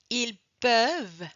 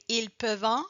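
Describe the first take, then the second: First: The final -ent ending is silent. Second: The final -ent ending is pronounced aloud. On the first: This is the standard form. The speaker calls it right. "No, ils peuvent" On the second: This is how some regional speakers say it. The speaker calls it wrong. "You gotta hear probably some Acadians say"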